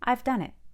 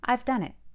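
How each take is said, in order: Both takes have the same delivery.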